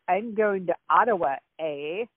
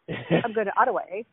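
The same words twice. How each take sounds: First: The final 'A' is set apart after a pause. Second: The final 'A' runs straight on from Ottawa. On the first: The speaker calls it wrong. "you don't say like" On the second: The speaker calls it right. "the A is tacked on to the last word like another syllable"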